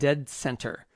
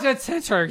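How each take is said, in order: First: The name is said in a plain American accent. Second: The name is said in an Irish accent. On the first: The speaker calls it wrong. "Say it properly" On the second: The speaker calls it right. "My people would be proud of you"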